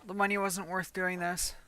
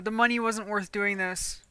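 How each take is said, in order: First: Much softer repeat; muttered repeat. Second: Said in the usual way. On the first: Real, not acted. Regretting the gun job, a soft repeat to himself. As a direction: say "The money wasn't worth doing this" again under the breath.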